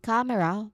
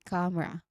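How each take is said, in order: First: The word has three syllables, middle vowel kept. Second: The word has two syllables, middle vowel dropped. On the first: "instead of saying camera" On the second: "we say camera"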